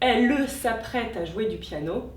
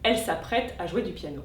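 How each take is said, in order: First: The mute e sounds are pronounced. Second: The mute e sounds are dropped. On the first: The speaker calls it right. "Ou bien" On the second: The speaker calls it wrong. "et non"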